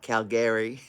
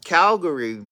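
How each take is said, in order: First: The name is said with a Canadian pronunciation. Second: The name is said with an American pronunciation. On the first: "like the Canadians say it" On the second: "That's how Americans say it"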